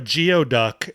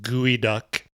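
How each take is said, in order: First: It is said as gee-oh-duck, following spelling. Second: It is said as gooey-duck, unlike its spelling. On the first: The speaker calls it wrong. "it's spelled geoduck" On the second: The speaker calls it right. "but no, it's pronounced gooey duck"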